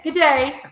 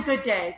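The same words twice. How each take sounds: First: Australian accent attempt. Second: Said in the usual way. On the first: Shown as a demonstration. Trying the greeting for an Australian viewer, playful Australian accent. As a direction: have a laughing go at an Australian "Good day". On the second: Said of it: "no, I'm gonna say".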